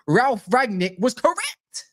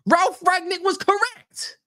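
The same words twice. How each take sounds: First: Said in the usual way. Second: Ralf Rangnick was correct, much higher and slow; high, slow, incredulous; mock disbelief. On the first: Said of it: "repeated line, second higher". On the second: Shown as a demonstration. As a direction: squeak it in mock shock. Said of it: "repeated in mock voice".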